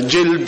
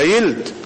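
First: The word starts with a j sound. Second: The word starts with a y sound.

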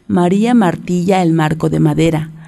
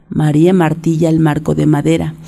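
No difference in how they are said.

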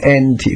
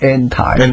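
First: It is said with a British pronunciation. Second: It is said with an American pronunciation. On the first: "唔系讲anti" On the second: "anti 呢样美国音啦"

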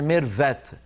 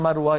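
First: The consonant after the r is a v sound. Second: The consonant after the r is a w sound. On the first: The speaker calls it wrong. "يقولون ميرفت، فالفا هذه أصل متأثرة باللهجة التركية" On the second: The speaker calls it right. "ما يقولون مروة"

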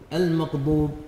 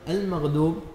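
First: The ghain is pronounced close to a q. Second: The dad is pronounced like a plain d. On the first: "نطق الغين قريبا من حرف القاف" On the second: "استبدال الضاد دالا"

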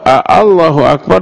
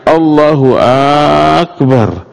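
First: The first vowel of Allah is drawn out long. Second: The first vowel of Akbar is drawn out long. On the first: It asks whether God is great. "Dan huruf A di awal" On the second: It asks whether he is great. "Atau A pada Akbarnya"

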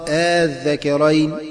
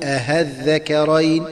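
First: The second hamza becomes a short plain a. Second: The second hamza becomes a clear h sound. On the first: "أن تبدل ألف خالصة هكذا مع القصر" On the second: "أن تبدل الهمزة المسهلة هاء خالصة هكذا"

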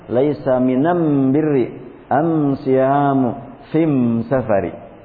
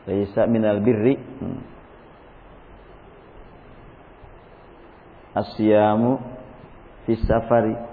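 First: The article is pronounced with an M sound. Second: The article is pronounced with an L sound. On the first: "Tapi beliau mengucapkannya" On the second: "Tulisan yang aslinya kan"

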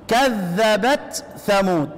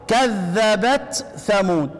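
First: The t is pronounced clearly before the th. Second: The t is pronounced clearly before the th.

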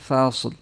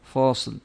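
First: The first syllable is light and thin, like fa. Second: The first syllable is heavy and dark, like fo. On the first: The speaker calls it right. "Tapi fa" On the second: The speaker calls it wrong. "Karena suka terpancing dengan sod ini, fo"

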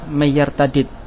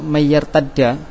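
First: The two d sounds are split by a vowel. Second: The two d sounds merge into one doubled sound. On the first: "jika dibaca fakul idgham" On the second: "contoh yang idgham"

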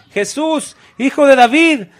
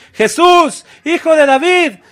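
Both takes have the same delivery.

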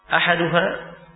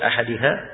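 First: The second vowel is an 'u' sound. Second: The second vowel is an 'i' sound.

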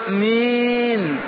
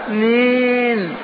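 No difference in how they are said.

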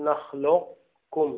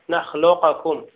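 First: A heavy q is held without any bounce. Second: The q sound is released with an echoing bounce. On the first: "نأتي بالقاف مفخمة لكن بدون قلقلة" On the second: "أما القلقلة فلم يقلقل أحد من القراء"

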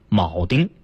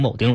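First: The word is said carefully in standard form. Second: The word is said quickly in reduced form. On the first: The speaker calls it right. "应该念铆钉" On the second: The speaker calls it wrong. "读快了就成铆钉了"

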